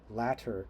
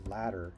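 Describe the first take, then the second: First: The middle consonant is a crisp T sound. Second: The middle consonant is a soft D-like sound. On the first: "we don't say latter" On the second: "we say ladder"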